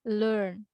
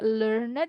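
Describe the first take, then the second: First: The ending adds no extra syllable. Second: The ending is said as an extra syllable. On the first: The speaker calls it right. "selain itu tidak dibunyikan" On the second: The speaker calls it wrong. "Tidak learned, begitu tidak"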